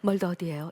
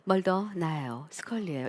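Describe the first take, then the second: First: It sounds hurried and urgent. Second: It sounds calm and relaxed.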